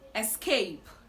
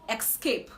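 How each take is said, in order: First: The word begins with an 'es' sound. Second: The word begins with an 'ex' sound. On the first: The speaker calls it right. "It is actually S" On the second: The speaker calls it wrong. "it is not X"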